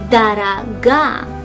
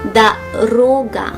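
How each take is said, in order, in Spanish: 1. El acento está en la última sílaba. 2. El acento está en la sílaba del medio. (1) "En la segunda palabra el acento está en la última letra A" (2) "En la primera palabra el acento está en la segunda O"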